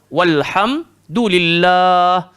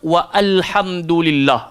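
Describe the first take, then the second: First: The 'wa' runs straight into 'l' without extra vowel. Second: The 'a' of 'al' is voiced as a separate vowel. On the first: The speaker calls it right. "alif tu dah tak bunyi, terus masuk dalam lam" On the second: The speaker calls it wrong. "dia akan silap sampai dia baca wa alhamdulillah"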